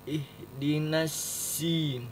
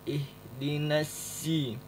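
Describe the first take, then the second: No difference in how they are said.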